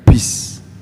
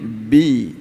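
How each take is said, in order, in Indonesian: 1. Suku kata ini berakhir dengan bunyi desis s. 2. Suku kata ini berakhir bersih, tanpa desis. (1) "Tidak boleh bis. Ada desisnya ya" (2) "Ini bi, bi, ba itu jahar"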